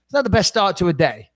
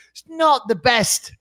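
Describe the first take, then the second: First: Said in the usual way. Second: "It's not the best" drawn out slowly, weight on "not"; stress on not. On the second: Real, not acted. Summing up his Christmas to Lewis, slow with weight on "not".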